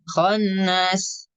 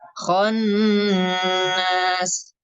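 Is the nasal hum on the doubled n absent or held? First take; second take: absent; held. First: The doubled n has no nasal hum held. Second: The doubled n is held with a nasal hum. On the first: The speaker calls it wrong. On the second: The speaker calls it right.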